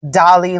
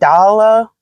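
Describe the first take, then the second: First: It is said like the word 'Dolly'. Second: It is said like 'Dala', not like 'Dolly'. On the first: "I live in America, so we pronounce it Dolly" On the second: "they said Dala"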